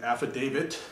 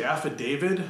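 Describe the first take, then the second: First: Said in the usual way. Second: Affidavit said af-fi-DAY-vid with a D; a sloppy affidavit ending in vid; mispronounced affidavit. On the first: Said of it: "rather than affidavit". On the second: Shown as a demonstration. Quizzing viewers, affidavit said with a D ending. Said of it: "if you say affidavit rather than affidavit".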